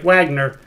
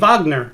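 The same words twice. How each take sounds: First: It begins with an English W sound. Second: It begins with a V sound. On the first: The speaker calls it wrong. "which looks like Wagner" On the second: The speaker calls it right. "but it's actually Wagner"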